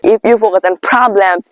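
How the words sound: It is spoken in an American accent. The speaker calls it right. "spread your mouth like eh and now speak"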